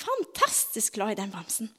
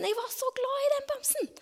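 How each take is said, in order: First: Said in the usual way. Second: High, breathy hushed whisper of a loved teddy; soft, high child-like whisper; tender whisper. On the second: Retold or imitated. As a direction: whisper it like a secret love. Child's fond memory of teddy.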